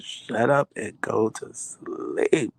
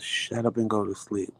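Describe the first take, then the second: First: Slow, stretched-out scolding; drawn-out exasperation. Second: Brisk, restrained telling-off; mild exasperated scolding. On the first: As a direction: drag each word out, ending on a long sleep. Wife's worn-out repeated scolding. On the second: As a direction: scold a noisy husband without raising your voice. Wife scolds screaming husband, first take. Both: Retold or imitated.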